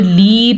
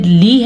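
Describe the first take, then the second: First: "لی" stretched to a long lee; wrong lengthened laam. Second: "لی" with a brief vowel; short laam. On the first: Teacher shows the big mistake, over-long "لی". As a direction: draw "لی" out too long. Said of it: "پڑھیں گے تو بڑی غلطی". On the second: Teacher says do not lengthen laam, short "لی". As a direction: keep "لی" short, just li. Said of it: "لام کو لمبا نہیں کرنا". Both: Shown as a demonstration.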